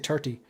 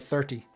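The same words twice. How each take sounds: First: The word begins with a plain t sound. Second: The word begins with a th sound. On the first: "they don't pronounce their H's, like they say thirty" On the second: "instead of thirty"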